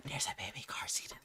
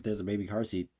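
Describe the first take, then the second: First: Hushed, voiceless mock whisper; barely audible whispering impression; imitated whisper. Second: Said in the usual way. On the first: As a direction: mimic someone whispering a secret find. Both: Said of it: "why is she whispering".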